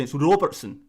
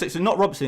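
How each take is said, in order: First: Put-on Scottish pronunciation of ROBERTSON; Scottish accent. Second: Said in the usual way. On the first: YouTuber playing a Scot correcting the English name, Scottish accent. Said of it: "trying to do a Scottish accent". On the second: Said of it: "in your native accent".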